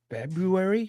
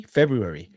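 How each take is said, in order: First: "February?" with a rising, questioning tune; unsure question. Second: "February" with a firm falling tune; settled answer. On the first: Unsure of the date, asking himself. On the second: Confirms the date to himself. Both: Real, not acted.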